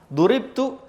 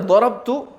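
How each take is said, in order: First: The word is read with u and i: duribtu. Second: The word is read with o vowels: dorobtu. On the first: The speaker was the one hit. "saya yang dipukul" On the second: The speaker did the hitting. "Kalau dia baca dorobtu, saya yang mukul"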